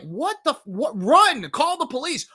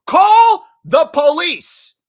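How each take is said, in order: First: High, urgent yelling at the screen; acted-out panic at dumb horror characters; exasperated viewer. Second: Loud, high, drawn-out shout; exasperated shout. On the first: Viewer urging the movie kids to flee, high exasperated alarm. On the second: Acted. Viewer yelling at horror characters, drawn-out exasperated shout. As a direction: bellow each word slowly in exasperation. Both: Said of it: "you're like".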